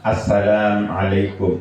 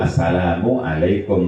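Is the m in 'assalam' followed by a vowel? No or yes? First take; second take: no; yes. First: The m is closed with no vowel after it. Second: The m is followed by a 'u' vowel. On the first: "meskipun disukun mimnya" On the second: "yang betul"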